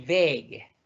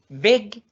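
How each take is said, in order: First: "beg" with a long, held e; long vowel. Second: "Beg" short, with a quick e; short vowel. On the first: Teacher contrasting two different meanings, long-vowel "beg". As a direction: draw out the e in "beg". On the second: Teacher contrasting two different meanings, short-vowel "Beg". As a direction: keep "Beg" brief. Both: Shown as a demonstration. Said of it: "dos significados totalmente diferentes".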